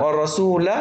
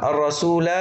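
First: الرسول ending in short "la"; wasl, open lam. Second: الرسول ending in long "laa"; waqf with alef. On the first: Teacher showing the joined form, short fatha on الرسول. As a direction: end الرسول on a brief "a", ready to continue. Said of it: "مفتوحة وبكمل". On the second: Teacher showing the stopped form, long alef on الرسول. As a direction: stop on الرسول holding final "aa". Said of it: "وقفًا". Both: Shown as a demonstration.

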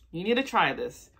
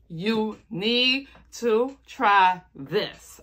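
First: Said in the usual way. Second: "need" stretched slowly, rising; slow emphatic insistence. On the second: Shown as a demonstration. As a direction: drag out "You need to try this". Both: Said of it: "repeated with emphasis".

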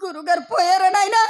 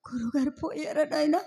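First: Fuller, raised lamenting cry; stage wailing. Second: Hushed, stunned lament; starting to weep. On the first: Wife crying to servant over husband's death, raised wail. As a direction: wail the question out. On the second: Wife asking servant if her husband has died, soft lament. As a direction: ask it softly, as grief begins. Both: Acted. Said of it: "ఎందుకండి ఏడుస్తున్నారు".

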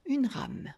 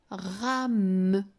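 First: Said in the usual way. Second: "rame" slowly, with a long hummed final M; "rame" drawn out sound by sound. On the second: Shown as a demonstration. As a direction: stretch "rame" into ra-mmm. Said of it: "je peux la faire chanter longtemps".

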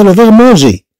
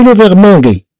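First: مونجي with a soft French j; soft j pronunciation. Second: مونغي with a hard g; hard g pronunciation. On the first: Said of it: "باش نحافظوا على النطق". (مونجي بجيم فرنسية ناعمة، النطق الصحيح) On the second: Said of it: "ماشي". (مونغي بجيم صلبة، النطق الخاطئ) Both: Shown as a demonstration.

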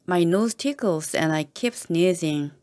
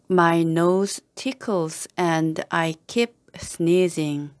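First: Said in the usual way. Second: Slow, every word given its own space; slow model reading. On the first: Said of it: "teacher repeats at normal pace". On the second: Shown as a demonstration. Teacher modelling the sentence for learners, slow and careful. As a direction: spell it out slowly for the class. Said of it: "teacher models slow first reading".

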